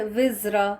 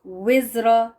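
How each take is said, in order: First: وزرا with an Urdu v, lips flat; v sound. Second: وزرا with a rounded w. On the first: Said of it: "وی کے ساتھ". (وزرا وی کی آواز سے) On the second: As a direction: lips round before وزرا. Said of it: "پہلے ہونٹوں کو گول کر لیں". (گول ہونٹوں سے وزرا) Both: Shown as a demonstration.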